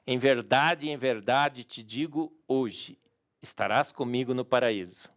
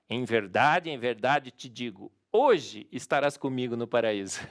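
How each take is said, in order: First: The pause comes after the word hoje. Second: The pause comes before the word hoje.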